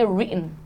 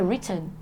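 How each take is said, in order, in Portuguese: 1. É falado com sotaque americano. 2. É falado com sotaque britânico. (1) "Em americano é written" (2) "em britânico é written"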